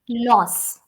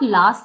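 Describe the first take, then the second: First: The vowel is an O sound. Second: The vowel is not an O sound. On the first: The speaker calls it right. "O sound" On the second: The speaker calls it wrong. "it's not loss"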